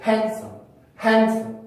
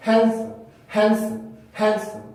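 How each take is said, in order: First: Handsome said flat, no syllable stressed; unstressed wrong version; no stress at all. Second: Handsome with a light bounce on each syllable; slow bouncing stress demo; bounced stress. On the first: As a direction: show the wrong flat reading. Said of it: "아예 강세를 주지 않고 발음하는 경우". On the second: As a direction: flick the sound up a little. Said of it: "소리를 조금 튕긴다고 생각하면서". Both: Shown as a demonstration.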